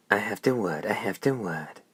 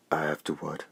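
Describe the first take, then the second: First: Higher, mocking parrot of her words; shrill mimicry. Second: Said in the usual way. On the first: A narrator's reading. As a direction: echo her back in a shrill mock. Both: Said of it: "The hoarse voice mimicked shrilly".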